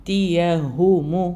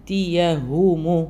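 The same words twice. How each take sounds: No difference in how they are said.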